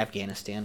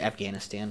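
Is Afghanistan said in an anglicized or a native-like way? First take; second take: anglicized; anglicized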